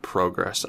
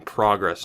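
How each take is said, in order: First: "progress" with a long "oh", PROH-gress; first vowel of "progress" like "go"; preferred "progress". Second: "progress" with an open "ah", PRAH-gress; first vowel of "progress" like "father"; criticised "progress". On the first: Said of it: "instead of progress". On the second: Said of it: "rip me apart for saying". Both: Shown as a demonstration.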